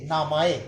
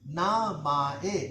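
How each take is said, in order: First: Said in the usual way. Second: नामाए drawn out syllable by syllable, na-ma-e; slow model word. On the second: Shown as a demonstration. Teacher to students, नामाए spelled out slowly. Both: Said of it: "तलफ़ुज़ आपने sound अच्छी तरह याद करने हैं".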